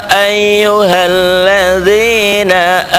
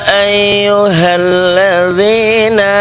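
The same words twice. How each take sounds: No difference in how they are said.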